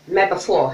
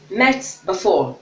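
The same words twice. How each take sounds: First: Met ends with a p-like sound. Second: Met ends with a clear t sound.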